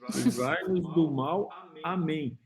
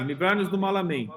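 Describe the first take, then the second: First: It is said slowly, words kept apart. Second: It is said fast, words run together.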